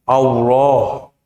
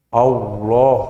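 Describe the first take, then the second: Both takes have the same delivery.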